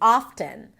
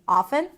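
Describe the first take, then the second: First: The T sound is pronounced. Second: The T sound is left out. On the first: "they will put in the T" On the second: "if they don't pay attention to the word"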